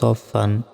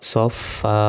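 First: The word ends with a short an sound. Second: The word ends with a long drawn a vowel. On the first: The reader continues without stopping. "ফা আলিফ 2 জবর ফান" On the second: The reader stops on this word. "এখানে থামলে একটা জবরের উচ্চারণ হবে"

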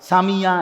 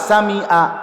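First: A y sound comes before the final vowel. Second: A glottal stop comes before the final vowel. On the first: "এটা তো ইয়া" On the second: "আপনি তো বললেন হামজা"

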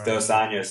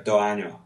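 First: The final s sounds are clearly pronounced. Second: The final s sounds are dropped. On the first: "two years is dos años" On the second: "they go do año"

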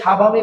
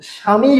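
First: A 'b' sound follows the first consonant. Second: No 'b' sound follows the first consonant. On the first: The speaker calls it wrong. "আমরা কিন্তু উচ্চারণে সাবামী বলি না" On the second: The speaker calls it right. "এখানে তো আমরা স্বামী বলি"

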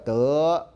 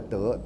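First: The syllable is drawn out long. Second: The syllable is short and abruptly cut off. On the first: "那国语呢叫德啊，声音拉很长" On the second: "仄声就是短促的啊。像台语的德"

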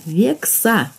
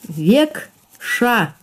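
First: The middle consonant is a plain s sound. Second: The middle consonant is an sh sound. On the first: "«с» и «ша»" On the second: "«с» и «ша»"

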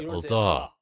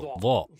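First: The syllable sounds light and thin. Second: The syllable sounds heavy and dense. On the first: The speaker calls it wrong. "Вы не говорите «лда»" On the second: The speaker calls it right. "то есть плотно, очень высоко"

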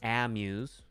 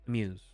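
First: The first vowel is full and drawn out. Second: The first vowel is reduced and very short. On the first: The speaker calls it wrong. "Not amuse" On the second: The speaker calls it right. "Very short"

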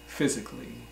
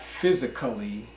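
First: The 'a' before the final 'lly' is dropped. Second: The 'a' before the final 'lly' is pronounced as a full syllable. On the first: The speaker calls it right. "but physically" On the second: The speaker calls it wrong. "not physically. That is wrong"

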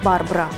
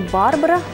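First: The stress is on the first syllable. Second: The stress is on the second syllable. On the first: The speaker calls it right. "а Барбара. Так и только так" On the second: The speaker calls it wrong. "Имя дивы вовсе не Барбара"

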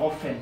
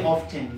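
First: The t sound is silent. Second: The t sound is pronounced. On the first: The speaker calls it right. "often is right in as far as pronunciation is concerned" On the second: The speaker calls it wrong. "don't say often. This thing is silent"

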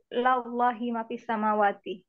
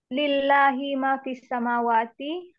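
First: The first syllable is said with an a vowel. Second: The first syllable is said with an i vowel. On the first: The speaker calls it wrong. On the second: The speaker calls it right.

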